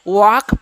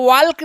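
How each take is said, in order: First: The L sound is left out of the word. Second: The L sound is pronounced in the word. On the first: The speaker calls it right. "वॉक पढ़िएगा" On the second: The speaker calls it wrong. "इसको वॉल्क नहीं पढ़िएगा"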